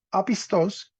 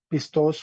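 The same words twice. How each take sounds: First: Apistos with the accent moved back, falling at the end; retracted stress. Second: Pistos with the weight on the last syllable, pis-TOS; stress on final syllable. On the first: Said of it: "acento en la anteúltima". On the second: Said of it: "se convertirá o se cambiará". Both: Shown as a demonstration.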